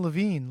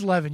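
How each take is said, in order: First: The name ends with a long 'een' sound. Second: The name ends with a short 'in' sound. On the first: The speaker calls it wrong. "You kept saying Levine, like it was [name] or [name]" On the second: The speaker calls it right. "It is Levin"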